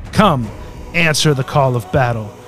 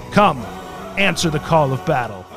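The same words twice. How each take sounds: No difference in how they are said.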